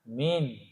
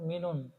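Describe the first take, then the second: First: The word ends plainly on the n sound. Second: The word ends with an added un sound. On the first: The speaker calls it right. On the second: The speaker calls it wrong. "Bukan minun"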